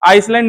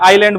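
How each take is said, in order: First: The word is said with an s sound. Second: The word is said without any s sound. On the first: The speaker calls it wrong. "आइसलैंड नहीं बोलेंगे" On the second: The speaker calls it right. "एस silent होता है, आइलैंड बोलते हैं इसको"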